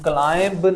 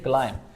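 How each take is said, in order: First: A b sound is heard at the end. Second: The word ends on m, without b. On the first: The speaker calls it wrong. "हम क्लाइंब नहीं कहेंगे" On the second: The speaker calls it right. "बल्कि हम कहेंगे क्लाइम"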